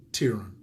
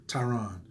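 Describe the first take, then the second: First: "Tyron" said as TEER-un; first-syllable TEER. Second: "Tyron" said as tie-RON; first-syllable TIE. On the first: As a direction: say "Tyron" with TEER up front, weak ending. Name said, then corrected. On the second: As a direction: say "Tyron" with TIE up front, full RON ending. Corrected take of the name. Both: Real, not acted.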